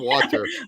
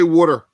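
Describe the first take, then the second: First: It is said in a standard accent. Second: It is said in a New Jersey accent.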